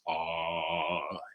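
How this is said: It is said at a low pitch. "we're going to find our low voice"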